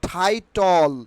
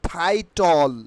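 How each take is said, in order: No difference in how they are said.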